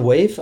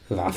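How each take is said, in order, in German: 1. Der Vokal ist ein langes 'ay', endet mit v. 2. Der Vokal ist ein kurzes 'a', endet mit f. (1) "sagt man Wave eigentlich?" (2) "Waff, eine schöne alte Waff"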